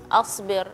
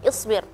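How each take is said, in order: First: The word begins with an 'a' vowel. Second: The word begins with an 'i' vowel. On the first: The speaker says that they themselves are patient. The speaker calls it wrong. "pelafalan harakah di kosakata tersebut asbir" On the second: It orders the listener to be patient. The speaker calls it right. "seharusnya dibacanya isbir"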